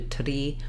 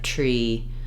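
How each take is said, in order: First: The R after the T is rolled. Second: The R after the T is smooth, not rolled. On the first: The speaker calls it wrong. "you're kind of doing a, a roll of the R" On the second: The speaker calls it right. "instead of tree"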